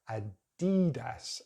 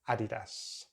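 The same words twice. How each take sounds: First: The stress is on a later syllable. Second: The stress is on the first syllable. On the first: "Americans pronounce it in a different way, they changed the stress" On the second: "we're going to stick at the beginning for the stress"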